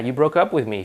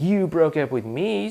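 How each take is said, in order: First: It sounds plain, calm and sincere. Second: It sounds sarcastic and passive-aggressive. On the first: The speaker is honestly stating a boundary. The speaker calls it right. "just just be real about it" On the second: The speaker is resentful and punishing the other person. The speaker calls it wrong. "don't just don't say it like all you know passive aggressive"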